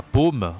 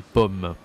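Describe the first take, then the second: First: Paume with a closed 'oh' vowel; wrong closed O. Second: Pomme with an open 'aw' vowel; correct open O. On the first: Teacher showing how apple is not said, paume with closed O. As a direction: say paume as 'pohm'. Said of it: "Ça se dit pas paume". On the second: Teacher correcting the word for apple, pomme with open O. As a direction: say pomme as 'pawm'. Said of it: "mais pomme". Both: Shown as a demonstration.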